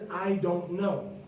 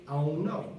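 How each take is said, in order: First: The D in 'don't' is clearly pronounced. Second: The D in 'don't' is dropped. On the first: The speaker calls it wrong. "Nobody says" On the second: The speaker calls it right. "most people say, ... Nobody pronounces the D"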